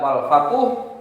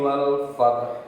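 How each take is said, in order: First: An extra 'u' vowel is added at the end. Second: The word ends on a consonant, no added vowel. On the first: The speaker calls it wrong. "tidak wal fatuh, salah" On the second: The speaker calls it right. "yang benar"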